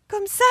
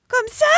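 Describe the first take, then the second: First: High, anxious call. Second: Louder, spluttering water out; coughing up water. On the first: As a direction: call out from the water. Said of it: "cria Gertrude". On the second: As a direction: splutter while calling again. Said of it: "recria Gertrude en crachant de l'eau". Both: Acted.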